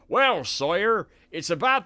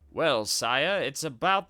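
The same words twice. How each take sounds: First: It is spoken in a Somerset accent. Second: It is spoken in an American accent. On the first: "I was thinking of giving him a Somerset accent" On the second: "Why am I giving this dude an American accent?"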